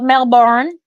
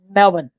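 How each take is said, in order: First: The second syllable has a full 'born' vowel. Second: The second syllable is reduced to 'bin'. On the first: The speaker calls it wrong. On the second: The speaker calls it right. "just go Mel and then bin"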